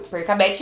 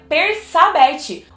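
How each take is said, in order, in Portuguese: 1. A consoante do meio tem som de K forte. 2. A consoante do meio tem som de S suave. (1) "Percabete é a única opção" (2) "o C seguido do A não, não tem som de Sa"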